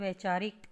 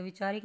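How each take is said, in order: First: वैचारिक with ai, as vaichaarik; ai vowel. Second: विचारिक with short i, as vichaarik; wrong short vowel. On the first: Teacher gives the correction, वैचारिक starting vai. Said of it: "क्या होता है". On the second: Teacher shows the mistake, विचारिक starting vi. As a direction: begin विचारिक on vi. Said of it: "नहीं होता". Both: Shown as a demonstration.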